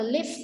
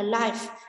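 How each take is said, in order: First: The vowel is short, as in 'give'. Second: The vowel is long, as in 'five'. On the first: It is used as a verb. "Động từ thì chúng ta sẽ đọc là live" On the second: It is used as an adjective. "còn tính từ chúng ta đọc là life"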